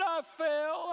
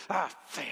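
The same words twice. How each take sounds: First: Put-on high, tearful small-child voice; crying little boy. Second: Grudging, angry answer; mock angry child. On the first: Small son tells dad about his bike fall, crying. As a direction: imitate a tearful child, pitched way up. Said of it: "and he cried". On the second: Mad little son answers dad after falling, angry. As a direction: imitate a mad little boy, words forced out. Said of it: "he was just mad".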